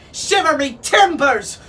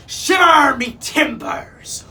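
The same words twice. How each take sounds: First: Squawking parrot, high and loud; Neptune. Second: Loud, drawn-out high roar; roaring pirate captain. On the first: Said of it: "squawked Neptune". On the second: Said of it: "roared Captain Snatchit". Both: A narrator's reading.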